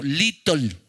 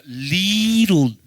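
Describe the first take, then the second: First: "little" said the Honduran-accent way, like litol; a quick, playful Honduran-accent "little". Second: "little" drawn out slowly in English, falling at the end. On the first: Pastor jokes that the church says "little" with a Honduran accent. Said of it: "Dígalo con acento hondureño". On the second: Pastor has the congregation say "little" slowly. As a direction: stretch out "little" like a joke English lesson. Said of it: "entonces diga little". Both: Shown as a demonstration.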